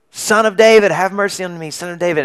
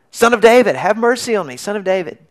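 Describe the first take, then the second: First: Higher, louder cry for mercy, easing off after the first words; a beggar calling out to a passing crowd; calling out loudly. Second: Higher and louder desperate cry, strongest on the first words; yelling even louder. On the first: Blind beggar calls to Jesus, loud plea. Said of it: "Bartimaeus starts yelling out". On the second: Blind beggar yells louder at Jesus, desperate plea. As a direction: shout over the crowd who tried to hush him. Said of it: "He yells even louder". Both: Retold or imitated.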